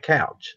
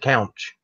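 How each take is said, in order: First: The word is said without an n sound. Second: The word is said with an n sound. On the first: "They don't sit on the couch" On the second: "There's an N in there somewhere"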